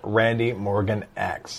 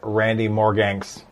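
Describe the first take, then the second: First: The X is said as a separate letter name. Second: The X is blended into the name as ks.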